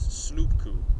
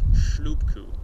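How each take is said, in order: First: The word begins with a plain 's' sound. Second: The word begins with an 'sh' sound. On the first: The speaker calls it wrong. "he mispronounces the word for dinghy as slupku" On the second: The speaker calls it right. "and not shlupku, as it should be"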